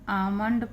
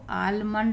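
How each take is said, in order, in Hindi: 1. यह शब्द बिना L की आवाज़ के बोला जाता है। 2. यह शब्द साफ़ L की आवाज़ के साथ बोला जाता है। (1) "आमंड पढ़ते हैं हम इसको" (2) "आलमंड नहीं पढ़ते हैं ना"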